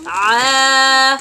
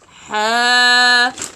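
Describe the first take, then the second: First: The throat is tight, with no air escaping. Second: The throat is open, letting air escape. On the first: The speaker calls it right. "Keep some sound inside" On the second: The speaker calls it wrong. "Inappropriate way, or the mistake may happen here is ha"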